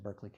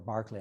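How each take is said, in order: First: The first syllable sounds like 'burr'. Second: The first syllable sounds like 'bar'. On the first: This is the regional pronunciation. "on the West Coast they call him Berkeley" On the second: This is the name's original pronunciation. "I believe is the proper pronunciation"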